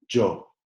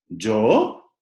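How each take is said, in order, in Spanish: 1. El tono se mantiene plano en la palabra. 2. El tono sube en la palabra. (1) "¿Tiene una entonación plana?" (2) "hay una inflexión en el sonido que puede ser ascendente"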